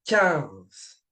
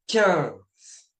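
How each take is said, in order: No difference in how they are said.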